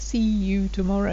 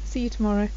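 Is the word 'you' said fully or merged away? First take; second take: fully; merged. First: The word 'you' is said fully and clearly. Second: The word 'you' is merged and shortened. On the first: "it's not always see you tomorrow" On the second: "we merge this"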